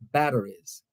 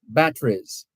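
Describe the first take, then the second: First: It is said with an American accent. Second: It is said with an English accent.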